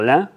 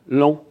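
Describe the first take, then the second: First: The vowel is the standard nasal 'an' sound. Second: The vowel sounds close to nasal 'on'. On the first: "Pour dire lent" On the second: "une prononciation proche de « on »"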